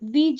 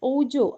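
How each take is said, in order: First: The word begins with a 'wee' sound. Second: The word begins with an 'oh' sound. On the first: The speaker calls it right. "ഇതിന്റെ യഥാർത്ഥത്തിലുള്ള pronunciation" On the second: The speaker calls it wrong. "സാധാരണ ഗതിയിൽ ഇതിന്റെ pronunciation ഓജോ"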